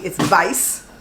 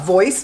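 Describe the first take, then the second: First: The vowel is said as 'eye'. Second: The vowel is said as 'oy'.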